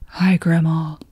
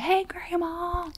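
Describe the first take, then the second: First: It is said in a low voice. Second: It is said in a higher voice.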